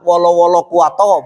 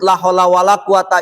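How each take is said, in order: First: The syllables are slurred into wolo-wolo kuwato. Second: Each syllable is pronounced clearly and fully. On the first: The speaker calls it wrong. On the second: The speaker calls it right.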